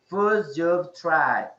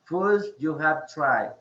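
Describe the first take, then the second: First: The words 'you have' are contracted to 'you've'. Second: The words 'you have' are said in full. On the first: "They just pronounce it you've" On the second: "instead of saying you have"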